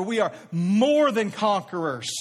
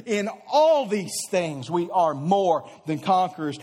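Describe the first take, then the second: First: "more" hit hard and slowed; emphatic, slowed declaration with "more" stressed. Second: Joyful laugh through the verse; delighted laughing scripture read. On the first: Shown as a demonstration. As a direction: lean on "more" in "We are more than conquerors". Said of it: "Notice we are not just scraping by". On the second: Real, not acted. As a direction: let a real laugh spill into it. Laughs mid-verse from joy.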